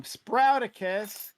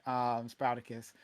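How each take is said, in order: First: Slow, high, drawn-out name call; drawn-out announcement. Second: Said in the usual way. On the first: Acted. Host announcing guest with flourish.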